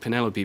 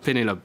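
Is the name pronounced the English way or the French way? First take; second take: English; French. First: The name has an English pronunciation. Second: The name has a French pronunciation. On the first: The speaker calls it right. "I'm saying Penelope because ... she's actually Welsh" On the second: The speaker calls it wrong. "and not Penelope"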